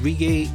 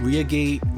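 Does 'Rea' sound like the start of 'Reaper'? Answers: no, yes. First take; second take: yes; no. First: 'Rea' is said like the start of 'Reaper'. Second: 'Rea' is said unlike the start of 'Reaper'. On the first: The speaker calls it right. "the correct way is Regate" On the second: The speaker calls it wrong. "I pronounce in the videos Reagate"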